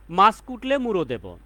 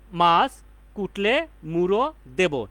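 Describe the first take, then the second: First: Said in the usual way. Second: "মাছ", "কুটলে", "মুড়ো", "দেব" said one by one with pauses; broken into parts. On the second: Shown as a demonstration. ("মাছ কুটলে মুড়ো দেব" প্রতিটি শব্দ থেমে থেমে আলাদা করে) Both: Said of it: "বা যতটুকু ভাঙা যায়".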